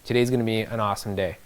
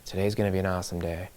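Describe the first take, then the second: First: It is said with high, lively energy. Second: It is said with low, flat energy.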